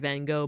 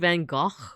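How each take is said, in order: First: It is said with an American pronunciation. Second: It is said the Dutch way with a guttural sound. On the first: "I'm American, so of course I pronounce it Van Gogh" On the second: "the actual, like, Dutch way to say it"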